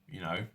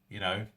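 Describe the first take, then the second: Both takes have the same delivery.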